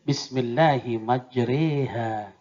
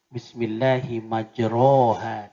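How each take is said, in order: First: The vowel after 'majr' leans toward 'e'. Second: The vowel after 'majr' is an open 'a'. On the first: This is the required tilted reading. The speaker calls it right. "harus dibaca imalah, miring" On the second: This is the vowel as written. The speaker calls it wrong. "sebenarnya baris atas"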